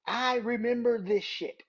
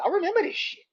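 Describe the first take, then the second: First: Said in the usual way. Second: Mocking high. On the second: Real, not acted. Mocking recalled fan claim.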